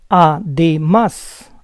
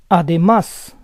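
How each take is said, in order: First: Además split as a-de-MÁS; syllable by syllable. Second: Said in the usual way. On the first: Shown as a demonstration. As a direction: say Además in parts, stressing MÁS. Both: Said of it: "try to understand the rules".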